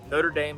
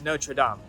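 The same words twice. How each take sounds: First: It is pronounced the American way. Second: It is pronounced the French way. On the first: It names a university in Indiana. The speaker calls it wrong. "Notre Dame is a university in Indiana" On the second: It names the Paris cathedral. The speaker calls it right. "to my American viewers, it, it is Notre Dame"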